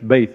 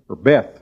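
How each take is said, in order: First: It is pronounced the Hebrew way. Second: It is pronounced the usual English way. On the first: "but it's Beth in the Hebrew" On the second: "you would say it"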